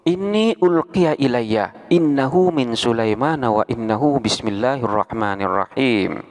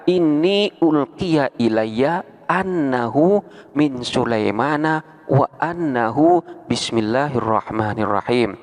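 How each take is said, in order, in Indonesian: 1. Partikel innahu dimulai dengan vokal i. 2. Partikel annahu dimulai dengan vokal a.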